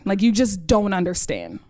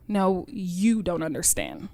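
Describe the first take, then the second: First: Put-on impatient teen, brushing her mom off; exasperated. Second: Slow and soft, each word weighted; a mother gently correcting her naive child; quiet, firm mother. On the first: Daughter insisting to her mom that she just doesn't get it. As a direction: roll your eyes at a parent who doesn't get it. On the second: Retold or imitated. Mom telling her daughter the compliment was really an insult, quiet and slow. She said to me.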